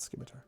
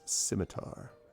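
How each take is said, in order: First: The word begins with an SK sound. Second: The word begins with a plain S sound. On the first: The speaker calls it wrong. "not scimitar" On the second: The speaker calls it right. "the sea is silent ... it is pronounced scimitar"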